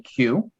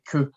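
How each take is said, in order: First: It is said with the English 'you' sound. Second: It is said with the French 'keu' sound. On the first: "so in English, you'd say Q" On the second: "in French, we would say que"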